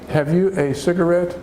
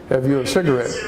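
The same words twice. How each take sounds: First: The phrase is spoken slowly, word by word. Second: The phrase is spoken quickly, words run together. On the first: "If we were speaking very slowly" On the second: "if we're going to say quickly"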